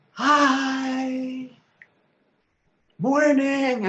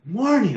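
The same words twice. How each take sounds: First: High, bright mimic of a little kid; imitating the neighbour kids greeting him; child's voice. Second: Own reply. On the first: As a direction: pipe it like a tiny kid on a tricycle. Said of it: "little tiny kids' voices". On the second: Retold or imitated. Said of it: "And I'm going".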